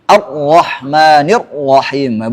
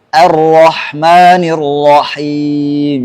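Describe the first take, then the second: First: The doubled R is pressed hard and harsh. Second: The doubled R is pronounced softly and gently. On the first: The speaker calls it wrong. "ditekan-tekan huruf ro-nya" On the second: The speaker calls it right. "tasydidnya dengan lembut"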